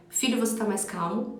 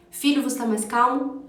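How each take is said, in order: First: Softer, gentle but firm question; calm, serene tone. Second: Said in the usual way. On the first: Shown as a demonstration. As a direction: ask it quietly and steadily. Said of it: "um tom de voz mais sereno, mais calmo, mas só que firme". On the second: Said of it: "você pode usar um tom de voz mais sereno".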